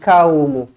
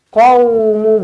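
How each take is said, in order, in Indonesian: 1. Dimulai dengan bunyi 'k' yang biasa, di bagian depan mulut. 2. Dimulai dengan bunyi 'q' yang dalam dan keluar dari tenggorokan. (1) "bukan kaumu" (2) "Qaumu bukan kaumu"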